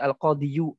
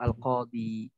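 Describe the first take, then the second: First: The word ends with a final 'yu' sound. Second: The word ends with a plain 'i' sound. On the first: The speaker calls it wrong. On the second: The speaker calls it right. "maka dia disukunkan. Jadilah al-qadi"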